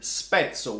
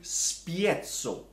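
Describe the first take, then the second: First: The first vowel is a plain 'e'. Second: The first vowel glides as 'ie'. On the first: This is the real Italian word. The speaker calls it right. "the word spezzo, which means break" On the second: It is meant to sound Russian. The speaker calls it wrong. "Spiezzo doesn't even exist. They just wanted to make it sound more Russian"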